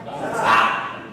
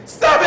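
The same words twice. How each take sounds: First: Hushed stop. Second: High, loud "Stop it!" yelled; sharp shout. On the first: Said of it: "waiting for me to say what". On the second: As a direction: snap "Stop it!" out to break her mood. Counselor interrupts student third time. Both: Retold or imitated.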